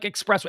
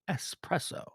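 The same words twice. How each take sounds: First: The first syllable is said with an x sound. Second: The first syllable is said with an s sound. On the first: The speaker calls it wrong. "It's not express like espresso" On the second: The speaker calls it right. "It's es espresso"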